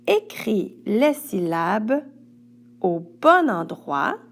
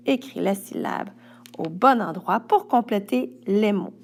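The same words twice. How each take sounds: First: Slowed down, stressing "les" and "bon" in "Écris les syllabes au bon endroit"; slow emphatic instruction. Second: Said in the usual way. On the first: Shown as a demonstration. Teacher to pupil, slow and emphatic. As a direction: spell out "les" and "bon" slowly for the child.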